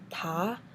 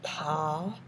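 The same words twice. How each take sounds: First: It is said with the second tone. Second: It is said with the third tone. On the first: "And second is" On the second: "third is"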